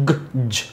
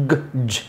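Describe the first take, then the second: Both takes have the same delivery.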